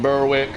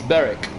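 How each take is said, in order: First: The name is said with an American pronunciation. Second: The name is said with the local pronunciation. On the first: The speaker calls it wrong. "my American friends who watch these videos probably pronounce that Berwick" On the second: The speaker calls it right. "But no, it's Berwick"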